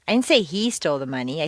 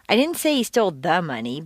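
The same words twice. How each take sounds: First: The word "he" carries the main stress. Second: The word "money" carries the main stress. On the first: Someone else probably took it. "I think someone else took it" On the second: Something other than the money was taken. "but rather some"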